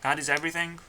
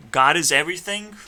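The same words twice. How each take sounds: First: "God is everything?" asked with a questioning doubt; doubtful question. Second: Louder, sure declaration; firm claim. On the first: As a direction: turn "everything" into an unsure question. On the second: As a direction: state it boldly and firmly. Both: Real, not acted.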